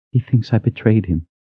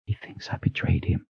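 First: Higher voiced, hurt statement; wounded, raised-pitch admission; pained disbelief. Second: Whispered, grief-stricken repeat; barely audible, heartbroken whisper; tearful whisper. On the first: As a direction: say it high and hurt, still voiced. First, voiced take of repeated grief. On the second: Acted. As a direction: whisper it through welling tears. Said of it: "tears welling up in her eyes".

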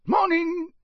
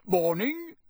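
First: "Morning" much higher and louder, a rustic countryman; gruff Muggle. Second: Cheerful, lifted morning greeting; bright greeting. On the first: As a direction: answer like the wary campsite owner. Muggle campsite owner answers greeting. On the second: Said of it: "said Mister Weasley brightly". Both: Acted.

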